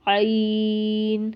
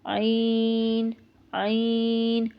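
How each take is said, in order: First: عین drawn out from the throat, not the nose; throaty, held عین with no nasal sound; correct ayn. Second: عین pushed into the nose, nasal and held; mistakenly nasal عین; wrong nasal ayn. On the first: Teacher giving the correct عین before the wrong one. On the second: Teacher showing students the wrong nasal عین. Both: Shown as a demonstration. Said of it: "اس طرح ہم پڑھیں گے تو یہ بالکل غلط".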